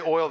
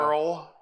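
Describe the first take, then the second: First: The word is said with a standard vowel. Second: The word sounds like 'earl', with an r-colored vowel. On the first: "They don't say oil" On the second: "they say"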